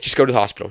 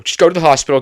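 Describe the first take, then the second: First: Said in the usual way. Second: Louder and higher, frantic repeat; panicked mom. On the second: Retold or imitated. Mother on the phone yelling at daughter to go, frantic. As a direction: push it up like a worried mother losing it. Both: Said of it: "But she's freaking out".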